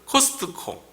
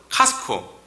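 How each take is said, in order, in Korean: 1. 이 단어는 T 소리를 분명하게 발음해요. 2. 이 단어는 T 소리를 묵음으로 발음해요. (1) "한국말로는 코스트코" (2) "영어 발음은 카스코, T에 묵음이라서"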